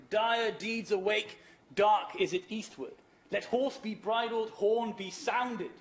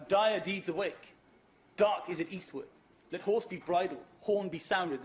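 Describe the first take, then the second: First: Slow, loud, rallying verse; declaimed verse. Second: Said in the usual way. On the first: Acted. Lecturer reciting the riders' call, slow and rousing. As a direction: call it out like a battle cry. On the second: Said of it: "short phrases like".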